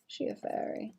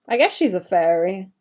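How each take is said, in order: First: Breathy whisper, wondering; whispered question. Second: Said in the usual way. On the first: Real, not acted. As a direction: whisper it to yourself. Musing to herself.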